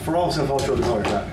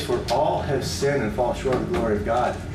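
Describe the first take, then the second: First: It is mumbled quickly and indistinctly. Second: It is spoken clearly and deliberately. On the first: The verse is recited by rote without weight. The speaker calls it wrong. "we can get almost like we just mumble it" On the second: The verse is delivered with force and meaning. The speaker calls it right. "it's very powerful to say"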